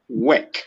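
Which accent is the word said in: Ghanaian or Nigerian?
Ghanaian. Ghanaian accent, the vowel sounds like 'work'. "in Ghana, we pronounce it work"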